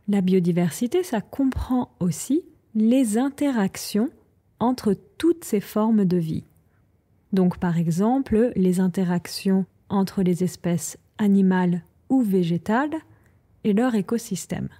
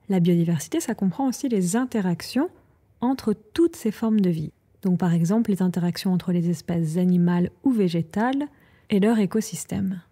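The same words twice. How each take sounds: First: It is said at a slower pace. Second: It is said at a faster pace.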